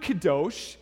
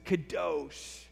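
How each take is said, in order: First: Said in the usual way. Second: "Kadosh" drawn out with forceful weight on the second syllable; forced emphasis. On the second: Shown as a demonstration. Preacher showing the congregation a Hebrew word, "Kadosh" with forced emphasis. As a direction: force out "Kadosh", stretching its ending. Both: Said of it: "gotta force some emphasis".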